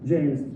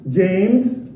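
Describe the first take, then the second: First: The name is said softly and kindly. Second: The name is said loudly and sternly. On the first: The child is being praised. "you might take the nice route" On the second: The child is being scolded. "raise your voice"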